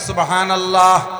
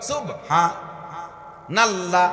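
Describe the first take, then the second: First: It is said as one unbroken word. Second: It stops after 'subha' before the rest. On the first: The speaker calls it right. "Clear জিকির বলেন" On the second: The speaker calls it wrong. "সুবহা কে থামিয়ে যায়"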